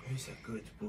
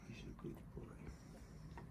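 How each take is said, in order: First: Said in the usual way. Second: Slow unvoiced whisper of praise. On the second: Real, not acted. Whispered praise near sleeping baby.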